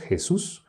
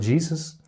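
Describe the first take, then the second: First: The name is pronounced the Spanish way. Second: The name is pronounced the English way. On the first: "así como nosotros" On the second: "como dicen en Estados Unidos"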